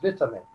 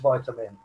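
First: It is said with a British pronunciation. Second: It is said with an American pronunciation. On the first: "English is vitamin" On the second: "American is vitamin"

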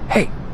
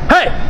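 First: It is whispered quietly. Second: It is screamed loudly.

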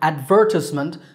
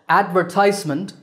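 First: The stress is on the second syllable. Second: The stress is on the third syllable. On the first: "stress on second syllable, ver" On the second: "stress on the third syllable, ties"

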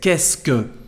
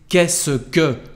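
First: The syllables are squeezed together into a contraction. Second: Every syllable is said out in full. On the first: "But when we speak, we say" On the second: "the first part of our sentence is"

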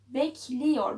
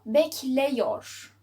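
First: The vowel after 'bekl' is a narrow i. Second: The vowel after 'bekl' is an open e. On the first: The speaker calls it right. "buradaki e'yi daraltalım" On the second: The speaker calls it wrong. "Olmuyor. Biz günlük hayatta bunu bekleyor diye kullanmıyoruz"

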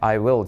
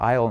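First: Two separate full words are pronounced. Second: The words are joined into one short syllable. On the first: "I will じゃなくて" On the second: "喋るときはI'll になるよ"

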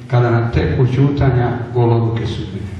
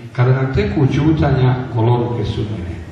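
The two takes are said the same way.

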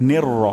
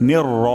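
The two takes are said the same way.

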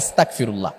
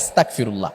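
First: The consonant after 'asta' is a hard k. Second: The same.

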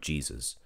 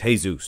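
First: The name is pronounced with English sounds. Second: The name is pronounced with Spanish sounds. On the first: The speaker calls it wrong. "not Jesus" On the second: The speaker calls it right. "he's Mexican. It's Jesus"

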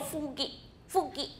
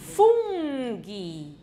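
First: The n sound is missing, like a child. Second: The n sound is clearly heard. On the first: The speaker calls it wrong. "不能说fungi 是小朋友bambino 哈的声音" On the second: The speaker calls it right. "不要忘记那个n 呢"

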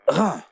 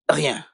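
First: No glide comes before the nasal vowel. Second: A 'y' glide comes before the nasal vowel. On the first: The speaker calls it right. "Bonne prononciation" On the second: The speaker calls it wrong. "Qu'est-ce que tu dis? Rien"

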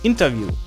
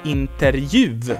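First: The sounds come in their usual order. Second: The r, j and v sounds are rearranged. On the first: The speaker calls it right. "Ganz einfach" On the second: The speaker calls it wrong. "die Aussprache wäre dann Interview, weil das einfach einfacher ist"

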